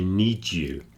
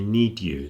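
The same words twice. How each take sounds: First: The d and y merge into a j sound. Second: The d and y sounds stay separate. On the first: The speaker calls it right. "they say need you ... the two sounds mix together into an extra one" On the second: The speaker calls it wrong. "People don't say need you"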